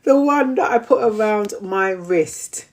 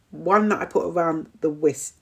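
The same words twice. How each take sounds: First: WRIST said clearly with its R; slightly raised, deliberate, clear WRIST; careful correction. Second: WRIST slurred into "wiss"; tongue-tied slip. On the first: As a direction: enunciate WRIST properly after fluffing it. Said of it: "I'll speak slowly". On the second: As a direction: stumble on WRIST, losing the R. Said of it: "I can't even speak straight". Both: Real, not acted.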